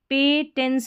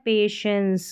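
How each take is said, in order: First: The middle consonant is a 't' sound. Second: The middle consonant is an 'sh' sound. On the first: The speaker calls it wrong. "पे टेंस नहीं पढ़ना है" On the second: The speaker calls it right. "इसको पढ़ना है पेशेंस"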